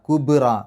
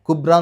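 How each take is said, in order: First: The b is released with an audible bounce. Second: The b is held flat without release. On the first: The speaker calls it right. "ബ് എന്ന് പുറത്തേക്ക് കേൾക്കണം" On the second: The speaker calls it wrong. "കുബ്ര എന്ന് പറഞ്ഞാൽ പോരാ"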